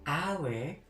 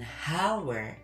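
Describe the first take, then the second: First: The word begins with a vowel sound. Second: The word begins with an h sound. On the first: The speaker calls it right. "tapi hour, a itu adalah huruf vokal" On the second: The speaker calls it wrong. "bukan dengan hour"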